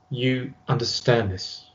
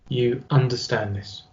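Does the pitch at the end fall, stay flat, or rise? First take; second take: fall; fall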